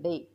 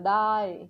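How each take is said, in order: First: The vowel is said like the word 'day'. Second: The vowel is said like the word 'die'. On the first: This is the actual pronunciation of the word. The speaker calls it right. "But here डे" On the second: This is how a beginner reading by the letters might say it. The speaker calls it wrong. "D A Y डे काय म्हणताय, डाय येते तर डाय है ना"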